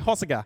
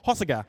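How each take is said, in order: First: It is said with an Australian English pronunciation. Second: It is said with an attempted French pronunciation.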